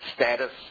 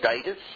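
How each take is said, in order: First: It is said with the American pronunciation. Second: It is said with the older Australian pronunciation. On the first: "all American pronunciations" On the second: "We used to say status"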